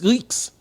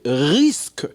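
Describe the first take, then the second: First: The word ends with a 'ks' sound. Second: The word ends with an 'sk' sound. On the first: The speaker calls it wrong. "c'est rix la di rix rix rix" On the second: The speaker calls it right. "le mot c'est risque"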